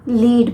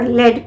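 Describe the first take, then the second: First: The vowel is long, like 'leed'. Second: The vowel is short, like 'led'. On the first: It means to guide others. "इसे हम लीड भी pronounce करते हैं" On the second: It means a type of metal. "और लेड भी pronounce करते हैं"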